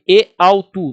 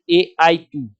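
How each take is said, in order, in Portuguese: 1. O primeiro ditongo soa como au. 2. O primeiro ditongo soa como ai. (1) "Você vai ler e autu" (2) "não vai ler e aitu"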